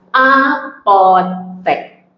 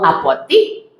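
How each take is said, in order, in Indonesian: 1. Suku kata terakhir memiliki vokal 'e'. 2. Suku kata terakhir memiliki vokal 'i'. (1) "maka kata dasarnya adalah apotek" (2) "jika ada yang menyebut dengan apotik"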